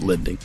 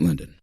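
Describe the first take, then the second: First: The word is crisply and clearly enunciated. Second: The word is drawled, sounding like Linden. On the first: The speaker calls it right. "I need to enunciate that a little better" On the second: The speaker calls it wrong. "acknowledge that draw that I just said with Linden"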